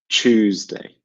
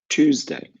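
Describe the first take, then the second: First: It begins with a ch sound, like chew. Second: It begins with a plain t, like two. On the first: "So this is British, Tuesday. ... T U makes a chew sound" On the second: "American pronunciation, the second day of the week, is Tuesday, like the number two"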